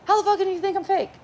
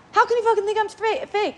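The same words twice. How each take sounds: First: Much higher, rushed indignant line; fast outrage. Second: Much higher, indignant outburst; inner outrage. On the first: Shown as a demonstration. Showing how fast the angry thought hits, rushed. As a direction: rattle it off at speed. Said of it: "faster than I could say it". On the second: Retold or imitated. Her inner reaction to being called fake, indignant. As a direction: blurt the hurt thought. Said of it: "It's like, really fast".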